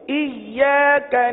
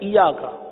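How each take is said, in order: First: The y sound is held and doubled. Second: The y sound is short and single. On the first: The speaker calls it right. "ईया का जरा रुक कर पढ़ेंगे" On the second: The speaker calls it wrong. "हमने गैर तशदीद वाला पढ़ दिया"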